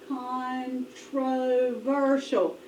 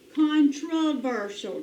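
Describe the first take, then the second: First: The first o is a long vowel. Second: The first o is a reduced schwa. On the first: The speaker calls it wrong. "Let's try long" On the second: The speaker calls it right. "sometimes that O can say the schwa sound, so let's try that"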